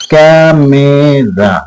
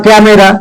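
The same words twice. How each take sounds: First: "camera" slow and lower, stretched as ক্যা, মে, রা; syllable by syllable. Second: Said in the usual way. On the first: Shown as a demonstration. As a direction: draw out each of the three syllables of "camera". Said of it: "দেখো ক্যা একটা". ("Camera" তিন ভাগে টেনে টেনে বলা) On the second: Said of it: "তাহলে তিনটে সিলেবল".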